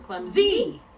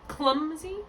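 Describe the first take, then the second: First: The stress is on the second syllable. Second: The stress is on the first syllable. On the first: "or the second syllable?" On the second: "Is it in the first syllable"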